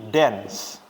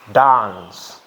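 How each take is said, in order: First: The vowel is said in an American way. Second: The vowel is said in a British way. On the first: "Kalau orang American ya, ngucapin A-nya jadi" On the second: "Tapi kalau orang British itu ngucapinnya"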